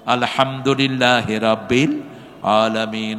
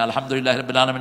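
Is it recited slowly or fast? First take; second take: slowly; fast. First: It is recited slowly with pauses. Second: It is recited fast without pauses.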